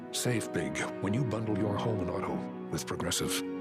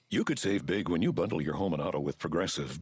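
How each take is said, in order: First: It is said in a serious, poignant tone. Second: It is said in a plain, matter-of-fact tone.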